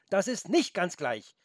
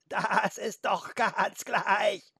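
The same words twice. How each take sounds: First: Mildly indignant call, pitched higher. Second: High, very slow bleat with stretched vowels; bleating goat. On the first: Felix corrects the careless goat, indignant. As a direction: object with a touch of outrage. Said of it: "rief Felix entrüstet". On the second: Goat brushes off Felix's objection, bleating. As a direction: bleat it out, dragging each vowel. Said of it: "meckerte die Ziege". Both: A narrator's reading.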